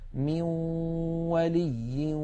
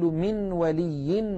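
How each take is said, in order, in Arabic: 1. تندمج النون في واو مغنّاة. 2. تُنطق نون واضحة قبل الواو. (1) "فنقول من ولي ولا نصير" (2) "ولا نقول من ولي ولا نصير، لا نظهر النون هكذا"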